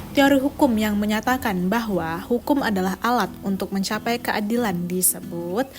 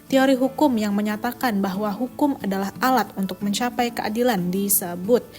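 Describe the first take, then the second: The two takes are said the same way.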